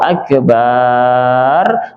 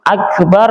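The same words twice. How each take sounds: First: The vowel after the b is drawn out long. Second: The vowel after the b is short. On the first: It means a large drum. The speaker calls it wrong. "artinya berubah menjadi kendang" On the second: It means the greatest. The speaker calls it right. "Akbar artinya maha besar"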